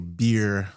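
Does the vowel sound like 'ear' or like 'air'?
ear. The vowel sounds like 'ear' with a clear R. "We don't say"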